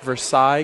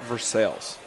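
First: It is pronounced like the French city. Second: It is pronounced in local Kentucky style. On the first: This is how the original name is said. "what should be probably Versailles, Kentucky, named after the beautiful city in France" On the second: This is how locals say the name. "we just call it Versailles"

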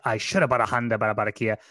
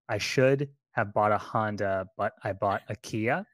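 First: It is said with fervent, emphatic conviction. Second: It is said in a plain, matter-of-fact way. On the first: "if you say it with conviction" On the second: "you have to say"

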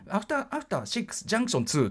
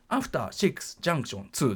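First: It runs straight on with no pause before 2. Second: A short pause comes before 2, in even rhythm. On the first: The speaker calls it wrong. "ここ開けないと…ここでつんのめっちゃうんですよね" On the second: The speaker calls it right. "均等なリズムで行くためにはやっぱり間が欲しい"

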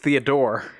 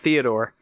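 First: The stress is on the last syllable. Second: The stress is on the first syllable. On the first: The speaker calls it right. "Emphasis on that last syllable" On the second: The speaker calls it wrong. "his name is not Theodore"

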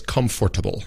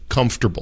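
First: It is said with four full syllables. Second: It is said with three syllables, US style.

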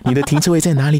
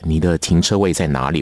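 First: A leering, sleazy-sounding voice. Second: A smooth, deep, charming voice. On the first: The offer sounds creepy and predatory. The speaker calls it wrong. "你千万不要有那种有一种猥亵的感觉" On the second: The offer sounds gentlemanly and helpful. The speaker calls it right. "要很帅气的声音，要有很有磁性的说"

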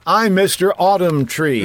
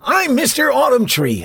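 First: It is said in his plain voice. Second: It is said in an old, wizardly voice.

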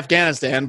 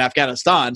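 First: It is said with a typical American pronunciation. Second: It is said with a pronunciation closer to local. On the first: "So Americans say Afghanistan" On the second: "the proper way to pronounce it if you're from that area"

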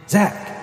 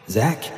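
First: The name is said loudly. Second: The name is said quietly.

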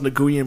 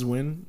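First: The name is said as spelled, in two syllables. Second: The name is said as one syllable, like win. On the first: This is how the spelling suggests it is said. The speaker calls it wrong. "It looks like it's pronounced Nguyen" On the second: This is how the name is actually said. The speaker calls it right. "but it's Win"

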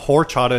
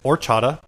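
First: The word begins with an audible H sound. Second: The word begins without any H sound. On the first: The speaker calls it wrong. "It's not horchata" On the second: The speaker calls it right. "I guess you don't pronounce the H"

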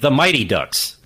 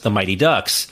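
First: The word 'Mighty' is stressed. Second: The word 'Ducks' is stressed. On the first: The speaker calls it wrong. "he kept saying" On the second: The speaker calls it right. "Can't you put the emphasis on ducks?"

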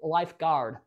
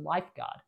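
First: Lifeguard is said with an American accent. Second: Lifeguard is said with an Australian accent. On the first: "I think that's the American way of pronouncing it" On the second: "I always say the word lifeguard like an Australian"

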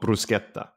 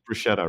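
First: The word is said with an Italian pronunciation. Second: The word is said with an English pronunciation. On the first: "In Italian, it's called bruschetta" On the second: "you call that bruschetta, right?"

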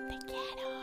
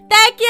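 First: It is said quietly, like a secret. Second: It is said very loudly, for everyone.

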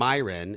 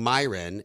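First: The name is said like Myron. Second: The name is said like Myron.

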